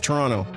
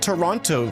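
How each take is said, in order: First: The second T is dropped. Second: The second T is clearly pronounced. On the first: The speaker calls it right. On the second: The speaker calls it wrong.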